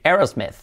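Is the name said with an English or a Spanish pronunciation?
English. It is said with an English pronunciation. The speaker calls it right. "hay que decir Aerosmith"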